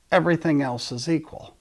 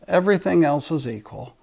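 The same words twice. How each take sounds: The two takes are said the same way.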